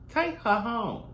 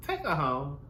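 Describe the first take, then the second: First: Higher, fed-up repeat; exasperated. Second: Said in the usual way. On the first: Real, not acted. Vlogger wants the girl gone, fed-up and higher. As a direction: throw it out like you've had enough.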